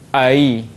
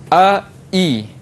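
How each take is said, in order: First: The second syllable is softened between stop and y. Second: The second syllable starts with a full glottal stop. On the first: "Tengah-tengah lahir ai. Itu tashil" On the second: "hamzah uh, sempurna"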